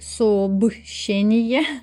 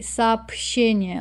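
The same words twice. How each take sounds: First: The consonant before 'щ' is a voiced 'b'. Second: The consonant before 'щ' is a voiceless 'p'. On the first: The speaker calls it wrong. "I don't say сообщение" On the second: The speaker calls it right. "like with the letter P instead of B"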